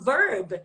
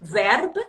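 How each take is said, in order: First: It is said with a non-Scottish pronunciation. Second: It is said with a Scottish pronunciation. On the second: "exactly how Scottish people speak. They say"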